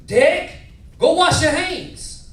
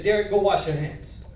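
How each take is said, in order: First: High, loud Mississippi grandfather; Deep South accent. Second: Said in the usual way. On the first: Retold or imitated. Grandfather ordering grandson to wash up, loud Deep South accent. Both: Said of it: "But this how he said it".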